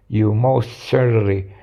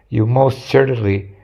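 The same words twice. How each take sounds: The two takes are said the same way.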